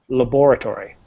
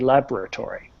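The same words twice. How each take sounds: First: Every syllable is said fully and clearly. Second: Some syllables are reduced or dropped. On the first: The speaker calls it right. "but it clearly is laboratory" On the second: The speaker calls it wrong. "People usually are lazy and say laboratory"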